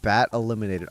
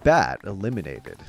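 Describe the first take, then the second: First: It is said in his normal voice. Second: It is said in a Halo announcer voice.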